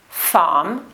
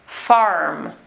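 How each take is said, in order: First: Farm with no R sounded, just a long open "fah-m"; received pronunciation. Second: Farm with a strong curled R before the M; West Country rhotic R. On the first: Teacher showing learners the royal accent, received pronunciation. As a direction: say farm the RP way, R left silent. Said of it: "In received pronunciation, we do not pronounce the letter R". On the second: Teacher showing learners Hagrid's accent, West Country rhotic R. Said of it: "but in the West Country accent, we do, the rhotic R". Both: Shown as a demonstration.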